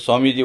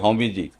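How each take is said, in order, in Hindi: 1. पहला शब्द s की आवाज़ से शुरू होता है। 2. पहला शब्द h की आवाज़ से शुरू होता है। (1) "आप बोलोगे" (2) "वो बोलेंगे"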